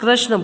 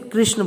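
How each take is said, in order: First: The first syllable has a plain 'ra' sound. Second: The first syllable has an 'ri' sound. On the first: The speaker calls it wrong. "अक्सर लोग कृष्ण बोलते हैं, कृष्ण नहीं है, गलत है वो" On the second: The speaker calls it right. "री की मात्रा लगी हुई है तो हमें उसे कृष्ण बोलना पड़ेगा"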